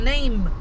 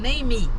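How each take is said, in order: First: The word ends cleanly on the final consonant. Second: An extra ee vowel follows the final consonant. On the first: "ele não sabe falar name" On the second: "ele põe o I, ... ele fala name"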